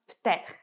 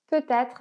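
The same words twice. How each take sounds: First: The word is shortened, with syllables dropped. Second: The word is said in full, every syllable.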